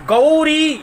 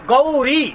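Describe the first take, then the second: The two takes are said the same way.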